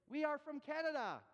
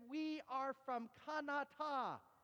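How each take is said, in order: First: Canada is said with a native English pronunciation. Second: Canada is said with the local foreign inflection. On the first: The speaker calls it right. "You're from Canada" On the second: The speaker calls it wrong. "I actually start to speak my own language the way they did"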